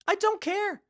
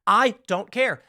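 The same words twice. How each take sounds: First: Much higher put-on voice for I don't care; lightly voiced mock whine. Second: Said in the usual way. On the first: Mocking high repeat of refrain.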